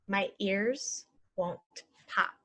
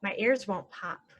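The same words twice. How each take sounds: First: Slow and even; slow model. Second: Said in the usual way. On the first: Shown as a demonstration. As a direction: say it slowly for learners. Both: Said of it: "normal then slow".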